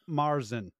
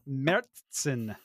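First: The first vowel sounds like 'ah'. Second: The first vowel sounds like 'eh'. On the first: The speaker calls it wrong. "not Marzen" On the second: The speaker calls it right. "the proper pronunciation is Märzen"

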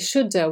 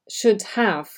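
First: The words are reduced and run together. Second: Both words are said fully and separately. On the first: The speaker calls it right. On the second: The speaker calls it wrong.

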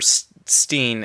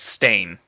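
First: The syllable has an 'ee' vowel. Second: The syllable has an 'ay' vowel. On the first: This is how many people remember the name. The speaker calls it wrong. "there's a whole like generation of people who remember Steen" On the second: This is how the name is actually spelled. The speaker calls it right. "it's Stain"

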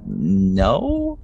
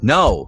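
First: The word is said hesitantly and uncertainly. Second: The word is said with irritation and impatience. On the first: The speaker is not confident in the refusal. "just very like unsure of yourself" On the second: The speaker is fed up with being asked. "stop asking me. I'm tired of it"

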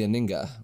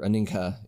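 First: The word is said without an h sound. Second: The word is said with an h sound.

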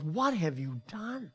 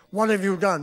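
First: It sounds sad and heartbroken. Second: It sounds harsh and angry.

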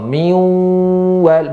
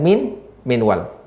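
First: The n merges into the w and disappears. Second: The n is pronounced clearly before the w. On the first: The speaker calls it right. "dibaca secara kesepakatan para ulama membacanya dengan idgham" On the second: The speaker calls it wrong. "bukan min wal"

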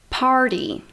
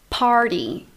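The two takes are said the same way.

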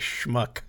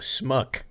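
First: The word begins with a sh sound. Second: The word begins with a plain s sound. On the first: The speaker calls it right. "but it's actually schmuck" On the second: The speaker calls it wrong. "nice try. I see what you're going for"

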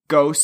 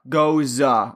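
First: It sounds like the English word ghost. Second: It ends with a short 'zuh' vowel. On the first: The speaker calls it wrong. "I always say ghost, and I realize that that's not the correct way to say it" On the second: The speaker calls it right. "Actually, it's goza"

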